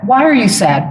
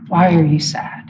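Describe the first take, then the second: First: It sounds accusing and critical. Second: It sounds caring and reaching out.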